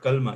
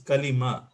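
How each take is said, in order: First: No vowel is heard between the L and M. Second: A short i vowel separates the L and M. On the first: The speaker calls it wrong. "It's not kalma" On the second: The speaker calls it right. "It's kalima"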